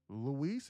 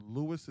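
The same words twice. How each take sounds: First: Luis with a long, stressed "ees" ending; Luis pronunciation. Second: Lewis stressed on the first syllable; Lewis pronunciation. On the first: Streamer checking which name is right, Luis said loo-EES. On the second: Streamer checking which name is right, Lewis said LOO-iss. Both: Shown as a demonstration. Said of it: "Lewis first or Luis second".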